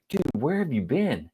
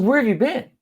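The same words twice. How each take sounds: First: Said in the usual way. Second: "Where" pushed much higher, insistent; exasperated repeat. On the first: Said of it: "I'm like". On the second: Retold or imitated. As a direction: repeat the question, higher and sharper. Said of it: "I said".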